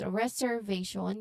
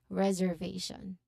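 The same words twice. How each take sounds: First: The middle consonant is a hissing s sound. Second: The middle consonant is a buzzing z sound. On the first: The speaker calls it wrong. "instead of s- reservation" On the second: The speaker calls it right. "you say reservation"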